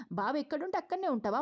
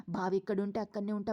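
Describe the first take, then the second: First: 'అక్కడనే ఉంటావా' thrown back higher in disbelief; mock her words incredulously; incredulous question. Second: Said in the usual way. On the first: Anasuya scolding Deepa, incredulous and higher. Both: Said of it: "ఏంటి దీప".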